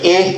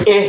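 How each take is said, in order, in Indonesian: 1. Vokalnya condong ke bunyi 'e'. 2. Vokalnya condong ke bunyi 'e'.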